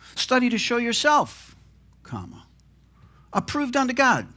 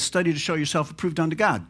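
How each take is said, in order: First: The pause comes after the word yourself. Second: The pause comes after the word God. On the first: "what if we moved that punctuation" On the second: "with the pause right there"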